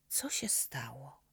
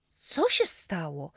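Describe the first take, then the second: First: Slow worried whisper; worried and curious. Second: Louder, slower alarmed asking; alarmed question. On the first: Boy quietly asks his friend about the prosthesis, worried whisper. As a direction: ask softly, afraid to pry. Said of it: "Zmartwiony i jednocześnie bardzo ciekawy". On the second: Boy runs to his limping friend, alarmed question. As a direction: rush over and ask what happened. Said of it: "podbiegłem złapać go pod ramię". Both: Acted.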